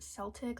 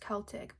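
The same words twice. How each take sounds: First: The word begins with an S sound. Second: The word begins with a K sound. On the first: The speaker calls it wrong. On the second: The speaker calls it right.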